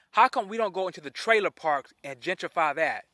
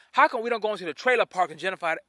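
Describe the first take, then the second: First: Said in the usual way. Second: Fast, run-together rhetorical question; rapid challenge. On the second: Real, not acted. Host challenges viewers about trailer parks, rapid challenge. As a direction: fire the question off quickly. First, rushed take of question.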